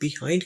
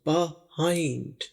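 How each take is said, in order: First: The first vowel sounds like "ee". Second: The first vowel sounds like "ah". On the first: This is how people in non-English-speaking Eastern countries say it. The speaker calls it wrong. "Eastern country के लोग जहां पर English नहीं बोली जाती वहां पर इसे बिहाइंड कहा" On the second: This is how English people say it. The speaker calls it right. "जैसे यहाँ पर आ की आवाज हो"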